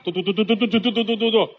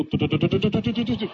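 First: Quicker "嘟嘟" patter, slightly higher; a quick "嘟嘟" footstep patter for the fast-walking prince. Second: Fast "嘟嘟" patter for quick steps; footsteps sound. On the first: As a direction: patter "嘟嘟" like a hurried walk. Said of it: "走道快". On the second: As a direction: rattle off "嘟嘟" like running feet. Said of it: "走道的声音". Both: Acted.

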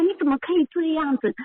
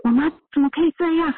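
First: 你怎么可以这样子 pitched high with stress on 以, then a falling end; retold indignant challenge, voice raised in pitch on 以; angry protest. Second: Indignant outburst. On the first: Daughter retells scolding mother over the wheelchair, high indignant 以 and falling end. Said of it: "我就会很生气". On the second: Retold or imitated. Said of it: "我就会觉得说".

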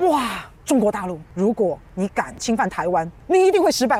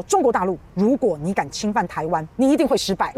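First: Letdown disbelief. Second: Said in the usual way. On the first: Retold or imitated. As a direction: rise to a stunned punchline. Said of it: "我都听到前面的时候". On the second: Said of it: "捷克议长说".

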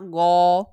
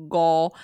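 First: 哦 said as "ōo", the g dropped, louder; common variant pronunciation. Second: 勾 said as "gōo" with voiced g; demonstrated Taiwanese five. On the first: Showing co-host what many people say for five, 哦 without the g. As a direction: say 哦 as a bare vowel "ōo". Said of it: "很多人会发". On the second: Showing co-host how five is pronounced, 勾 as "gōo". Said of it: "五的发音是". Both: Shown as a demonstration.

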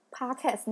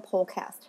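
First: Podcast with an open "pah" first syllable; other pronunciation. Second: Podcast with a rounded British "paw" first syllable; British pronunciation. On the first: Explaining to listeners how the show's name is said, podcast with "pah". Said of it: "为什么我的 podcast念". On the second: Explaining her own way to listeners, podcast with British "paw". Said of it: "念podcast". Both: Shown as a demonstration.

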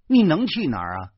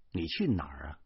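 First: Louder, higher repeat; raised-voice demand; challenging question. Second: Low, soft asking; soft, lowered question; subdued question. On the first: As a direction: throw it out as a loud challenge. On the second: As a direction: ask it quietly, voice held down. Husband's question, softer first take. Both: A narrator's reading.

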